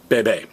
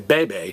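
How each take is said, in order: First: The stress is on the last syllable. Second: The stress is on the first syllable. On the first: The speaker calls it right. "stress me" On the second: The speaker calls it wrong. "don't stress the next to last vowel"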